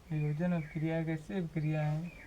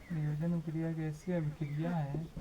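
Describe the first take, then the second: Both takes have the same delivery.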